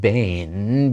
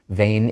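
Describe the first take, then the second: First: The word begins with a b sound. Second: The word begins with a v sound. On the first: No vowel comes right before the word. "instead of bain" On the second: A vowel comes right before the word. "because this second time there's a vowel before the bet"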